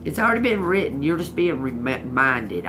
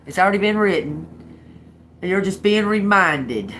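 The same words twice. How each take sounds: First: Said in the usual way. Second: Louder, faster, every word pressed home; emphatic restatement. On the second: Shown as a demonstration. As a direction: say it again with force and conviction. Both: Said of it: "I'll say it like that".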